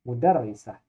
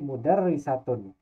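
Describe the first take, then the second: First: The word ends with a voiceless 'h' sound. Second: The word ends with a voweled 'tun' syllable. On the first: The word stands at the end of a sentence. "Kalau di akhir kalimat dan dibaca sukun, jadi menjadi mudarrisah" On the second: The word is read with its ending vowel, not at a pause. "dibaca hurufnya ta"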